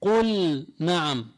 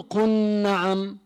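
First: قل نعم slow, the lam of قل sounded before نعم; clear lam in qul na'am. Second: قل نعم said as قنّعم, lam merged into the nun; wrong assimilated lam. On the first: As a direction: say قل نعم with the lam fully pronounced. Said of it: "حكمها الإظهار". (إظهار اللام في قل نعم) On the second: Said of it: "ما بضغم اللام بالنون". (قل نعم بإدغام اللام خطأً) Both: Shown as a demonstration.

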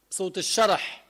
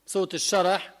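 No difference in how they are said.

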